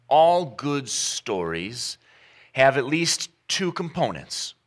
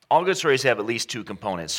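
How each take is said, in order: First: All good stories spelled out slowly; weighty, slow first statement; slow emphasis. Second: Said in the usual way. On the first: Shown as a demonstration. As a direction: lean on "all" and draw it out.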